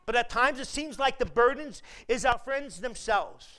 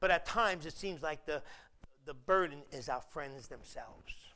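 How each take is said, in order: First: The sentence is spoken at a fast pace. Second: The sentence is spoken at a slower pace. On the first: The speaker calls it wrong. "Because I said that fast" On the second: The speaker calls it right. "Let me say it again"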